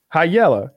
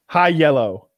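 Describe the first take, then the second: First: It is said at normal speed. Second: It is said slowly and carefully.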